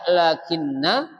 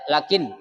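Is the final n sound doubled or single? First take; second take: doubled; single. First: The n is doubled and held longer. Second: The n is single and short. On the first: "Ada yang baca lakinna" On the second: "ada yang baca lakin gitu aja"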